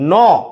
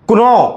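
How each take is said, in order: First: The k is silent; it sounds like no. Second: The k is sounded before the no. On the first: The speaker calls it right. "ఇలా చదువుతాం నో అని" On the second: The speaker calls it wrong. "దీన్ని కునో అని చదవము"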